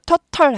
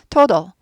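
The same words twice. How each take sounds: First: The second t is a clear, full t. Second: The second t is softened to a d. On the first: The speaker calls it wrong. "total 하지 않고" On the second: The speaker calls it right. "t 발음이 드 발음까지 약화됩니다"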